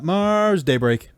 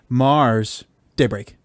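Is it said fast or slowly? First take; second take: fast; slowly. First: It is said quickly. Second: It is said slowly.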